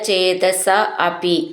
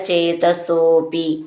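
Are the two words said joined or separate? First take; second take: separate; joined. First: The two words are said separately. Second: The two words are merged into one.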